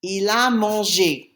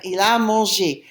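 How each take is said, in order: First: Slow, measured French for learners; slow model answer. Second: Said in the usual way. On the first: Shown as a demonstration. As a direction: give the answer slowly, word by word. Teacher gives answer slowly in French.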